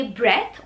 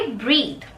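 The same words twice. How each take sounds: First: ब्रेथ with short e, breth; breath without final e. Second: ब्रीद with long ee, breedh; breathe with final e. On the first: Teacher ties sound to spelling, ब्रेथ as breth. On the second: Teacher ties sound to spelling, ब्रीद as breedh. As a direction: stretch the ee in ब्रीद, falling. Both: Shown as a demonstration. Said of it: "तो उसको आप बोलेंगे".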